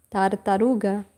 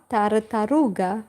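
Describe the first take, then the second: No difference in how they are said.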